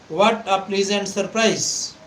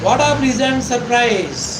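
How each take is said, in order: First: It is said plainly, like a question. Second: It is said with strong, excited surprise.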